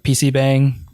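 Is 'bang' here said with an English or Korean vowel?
English. It is said with an English vowel. The speaker calls it wrong.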